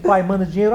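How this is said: It is read in a gruff, demanding tone.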